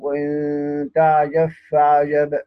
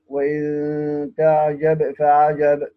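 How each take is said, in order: First: The b is merged into the following f. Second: The b is pronounced clearly before the f.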